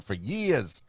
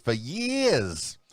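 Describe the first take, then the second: First: Drawn-out "years" in a slight Northern accent; touch of a Northern accent on "years". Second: Exaggerated Northern accent, higher on "years". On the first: Radio host boasting of his regular gig, slight Northern accent. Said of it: "Is that like a northern accent?". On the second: Radio host playfully repeating himself, exaggerated Northern accent. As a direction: lean hard into a Northern "years". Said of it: "Was that kind of a northern accent?". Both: Shown as a demonstration.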